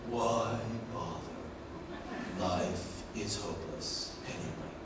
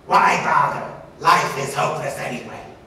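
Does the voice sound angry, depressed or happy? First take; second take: depressed; angry. First: Slow, low, flat monotone sounding depressed. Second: Faster, varied pitch with a buzzy angry tone. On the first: "that's slow, low, and it's a monotone, fairly depressed" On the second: "a little bit faster, a little bit more variation, ... buzzy tone, ... sounds angry"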